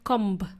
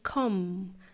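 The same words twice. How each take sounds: First: It ends with an audible B sound. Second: It ends on a long M with no B. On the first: The speaker calls it wrong. "not comb" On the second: The speaker calls it right. "we say comb"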